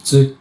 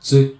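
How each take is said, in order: Both takes have the same delivery.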